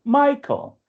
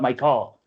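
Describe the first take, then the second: First: MI-chael, first syllable punched high, then dropping; "Michael" with a high, strong opening syllable; stress on first syllable. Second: Mi-CHAEL, weight wrongly on the last syllable; "Michael" with an unstressed start and full second vowel; stress on second syllable. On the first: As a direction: hit the "Mi" of "Michael". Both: Shown as a demonstration. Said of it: "emphasis on the first syllable".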